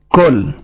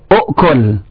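First: The word has one syllable, with no opening 'u'. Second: The word has two syllables, starting with 'u'. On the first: The opening sound is dropped to make it lighter. "Dibuang Hamzahnya. Kul. Takhfifan" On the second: This is the original full form of the word. "Al-asal ini, u'kul. Kerana ini diawali oleh Hamzah"

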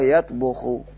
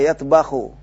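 First: The vowel after the 'b' is 'u'. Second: The vowel after the 'b' is 'a'. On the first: The speaker calls it right. "Padahal yang benar adalah tabakha yatbuhu" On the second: The speaker calls it wrong. "karena sering menggunakan tabakha yatbahu"

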